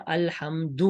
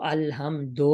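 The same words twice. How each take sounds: First: الحمد ended in "doo"; thin maroof ending. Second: الحمد ended in "do"; wrong majhool ending. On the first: Teacher shows how it is read, maroof "alhamdu" for الحمد. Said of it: "دال کو باریک پڑھا جائے گا". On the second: Teacher shows what not to read, majhool "alhamdo" for الحمد. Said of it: "نہیں پڑھا جائے گا". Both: Shown as a demonstration.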